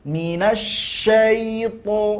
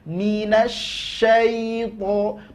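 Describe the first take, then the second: No difference in how they are said.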